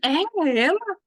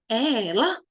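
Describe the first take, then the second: First: It sounds like an astonished, incredulous question. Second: The voice rises at the end like a question. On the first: The speaker cannot believe it is her. "Tipo, não acredito" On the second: The speaker wants to know who it is. "Estou fazendo uma pergunta"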